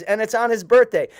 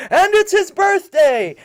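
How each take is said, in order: First: A touch higher and louder, pleased to add news; mildly excited. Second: Much higher, louder, slower festive shout; group cheer. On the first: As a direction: cousin announcing it's his birthday, a little excited. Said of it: "And my cousin says". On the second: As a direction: shout it out like a crowd celebrating. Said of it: "all the rebbes under the tent say". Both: Retold or imitated.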